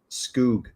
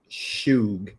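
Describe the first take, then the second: First: The word begins with an sk sound. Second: The word begins with an sh sound. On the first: The speaker calls it right. "It's probably" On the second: The speaker calls it wrong. "probably not"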